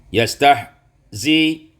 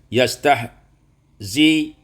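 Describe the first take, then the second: No difference in how they are said.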